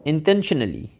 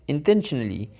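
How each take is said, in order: Both takes have the same delivery.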